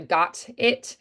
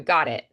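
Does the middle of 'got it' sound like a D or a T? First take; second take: T; D. First: The middle consonant is a crisp T sound. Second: The middle consonant is softened into a D sound. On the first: "less of a got it" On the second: "more of a got it"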